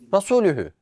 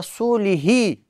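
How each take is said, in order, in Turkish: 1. Sonek u ünlüleriyle okunur. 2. Sonek i ünlüleriyle okunur. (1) "ayetin sonu nasıl okunuyordu?" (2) "Kişi bunu Resulihi diye okuduğunda"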